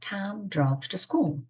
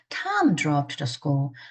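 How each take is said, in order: First: The word school carries the main stress. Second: The word Tom carries the main stress. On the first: The destination was the school. "학교를 강조하고 싶어요" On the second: This person went, not someone else. "John이 아니라"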